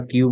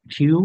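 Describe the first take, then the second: First: "কিউ" with an unaspirated k; local-style dry k in "কিউ"; everyday local Q. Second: "কিউ" said as khiu, with a puff of air; demonstrated breath after the k in "কিউ". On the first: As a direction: say "কিউ" with no puff after the k. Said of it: "এটা আমরা কিউ বলে থাকি". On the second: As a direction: aspirate the k of "কিউ". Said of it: "খ এর উচ্চারণ হবে". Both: Shown as a demonstration.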